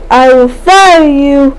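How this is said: It is said in a mean, harsh tone. "Not like"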